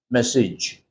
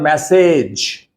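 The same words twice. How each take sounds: First: The final syllable is a short 'ij' sound. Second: The final syllable is a full 'age' sound. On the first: The speaker calls it right. "always pronounce that particular part each" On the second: The speaker calls it wrong.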